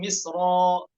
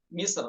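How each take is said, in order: First: The word ends with a lengthened final vowel. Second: The word stops on a light final r. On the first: "dibaca dengan eh, mad eh, iwad" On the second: "tarkik misr"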